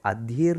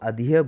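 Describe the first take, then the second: First: Adhere said "aa-dheer", with the r sounded; mistaken pronunciation. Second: Adhere said "ad-hee-ya", r left silent; corrected pronunciation. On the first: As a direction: say adhere as spelt, ending in -eer. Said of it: "उसको adhere नहीं बोलोगे आप". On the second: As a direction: end adhere on an open "ya" sound. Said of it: "नहीं, उसको adhere बोलोगे". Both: Shown as a demonstration.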